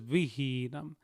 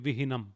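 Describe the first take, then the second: First: The first i is short, the second long. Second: Both i vowels are said short. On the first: "The first I doesn't have a bar, the second I has a bar. So it is vihinam" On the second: "If none of the I's had a bar, it would be vihinam"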